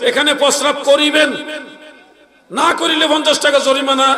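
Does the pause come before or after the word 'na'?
before. The pause comes before the word 'na'.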